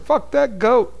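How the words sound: It is said like a direct order. Someone is told to do something to the goat. The speaker calls it wrong. "I said that wrong. / The first one was a command"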